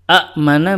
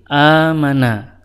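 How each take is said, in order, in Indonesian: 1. Hentian glotal mengikuti vokal pertama yang pendek. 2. Vokal pertama panjang tanpa hentian glotal. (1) "dua hamzah, yang pertama berharokat dan yang kedua sukun" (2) "digantikan dengan huruf mad"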